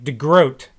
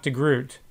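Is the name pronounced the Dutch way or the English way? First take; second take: Dutch; English. First: The name is said with Dutch pronunciation. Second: The name is said with English pronunciation. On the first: The speaker calls it right. "that's not how it's pronounced in Dutch. D-E-G-R-O-T is pronounced like de Groot" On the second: The speaker calls it wrong. "not de Groot"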